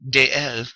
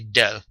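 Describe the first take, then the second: First: Two separate syllables, de and el, are heard. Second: The two words merge into one syllable. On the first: The speaker calls it wrong. "you don't say de el" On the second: The speaker calls it right. "You smush them together, you get del"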